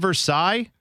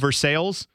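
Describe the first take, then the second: First: It is said the French way, ending in 'sigh'. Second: It is said the Ohio way, ending in 'sails'. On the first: It names the French palace. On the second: It is how people from Ohio say it.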